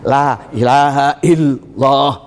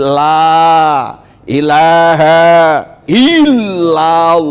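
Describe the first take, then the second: First: The opening "la" is swallowed and barely heard. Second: The opening "la" is pronounced clearly and lengthened. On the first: The speaker calls it wrong. "tanpa disadari udah hilang lamnya" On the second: The speaker calls it right.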